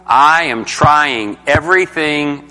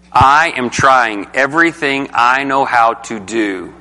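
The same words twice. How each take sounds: First: Slow, with "I" and "trying" each leaned on hard; stress on I. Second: Slow, with "I" and "trying" pressed in "I am trying everything I know how to do"; stress on I. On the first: Teacher to class, showing pronouns and verbs: slow stress on "I" and "trying". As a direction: give "I am trying everything" weight on "I" and "trying", word by word. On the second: Teacher to class, repeating the line: slow stress on "I" and "trying". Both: Shown as a demonstration. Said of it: "listen to my pronouns and my verbs".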